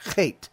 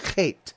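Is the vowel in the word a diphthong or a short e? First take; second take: diphthong; diphthong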